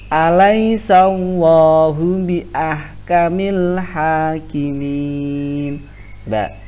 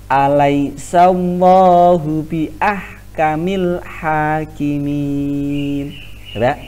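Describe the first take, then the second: No difference in how they are said.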